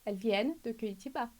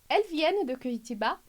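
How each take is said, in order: First: The pitch falls at the end. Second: The pitch rises at the end. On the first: It is a statement. "A entonação desce" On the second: It is a question. "Primeiro interrogação"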